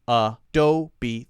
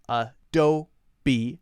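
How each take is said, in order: First: It is said with three syllables, final E voiced. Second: The same.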